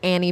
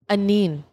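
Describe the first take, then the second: First: The name is said with two syllables, like Annie. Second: The name is said with three syllables, like Anine. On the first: The speaker calls it wrong. "Everybody thinks it's Annie Bing" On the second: The speaker calls it right. "how do you pronounce it? Anine"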